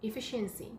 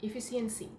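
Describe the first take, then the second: Both takes have the same delivery.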